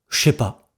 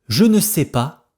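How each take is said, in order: First: The word ne is left out entirely. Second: The word ne is clearly pronounced.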